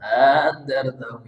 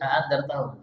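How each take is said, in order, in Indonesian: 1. Hamzah kedua dilunakkan dan dipanjangkan. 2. Hamzah kedua dibaca penuh dan tegas. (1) "nyeret gitu" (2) "Tidak boleh andartahum"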